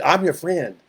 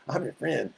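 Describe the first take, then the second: First: A light hint of a sly friendly devil; devil posing as friend. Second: Much softer, a sly near-murmur; soft devil murmur. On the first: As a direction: coax like a false friend, mildly put on. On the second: Acted. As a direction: lean in and breathe it like a secret.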